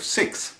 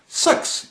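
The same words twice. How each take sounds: First: It is said in an Australian accent. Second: It is said in a New Zealand accent. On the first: "instead of six" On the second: "they say things like six"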